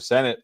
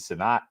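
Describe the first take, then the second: First: The name sounds like the word 'senate'. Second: The name does not sound like 'senate'. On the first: The speaker calls it right. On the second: The speaker calls it wrong.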